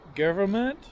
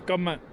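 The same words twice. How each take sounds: First: The word is said clearly with every syllable. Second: The word is clipped, with syllables dropped. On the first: "Americans will say government, so they'll say it even probably clearer" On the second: "But New Zealand's government. What are we short on words?"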